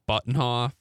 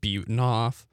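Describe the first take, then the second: First: The first part sounds like the word 'button'. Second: The first part does not sound like 'button'. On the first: This is how outsiders read the name off a list. The speaker calls it wrong. "they pronounce it Buttonhoff" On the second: This is how the family says the name. The speaker calls it right. "My side of the family pronounces it Butenhoff"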